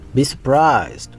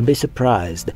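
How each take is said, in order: First: It is said with a French accent. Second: It is said with an English accent.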